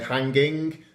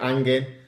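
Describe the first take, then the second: First: The H and final G are both pronounced. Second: The H and final G are both dropped. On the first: "we don't say hanging" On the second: "we don't pronounce the H and we don't pronounce the last G"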